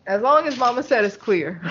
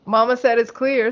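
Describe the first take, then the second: First: Giggling through the words; laughing. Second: Said in the usual way. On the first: Real, not acted. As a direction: laugh while you say it. Repeats the punchline while laughing.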